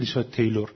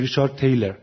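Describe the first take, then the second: First: The surname ends with a full 'lor' sound. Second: The surname ends with a reduced 'ler' sound. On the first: The speaker calls it wrong. "اما آمریکایی نمیگه" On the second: The speaker calls it right. "میگه"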